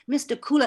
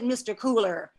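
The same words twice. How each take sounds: First: The final R is flattened and barely heard. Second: The final R is pronounced hard and clear. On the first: The speaker calls it right. "Flatten that R" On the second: The speaker calls it wrong. "Pronouncing that hard R hurts my mouth"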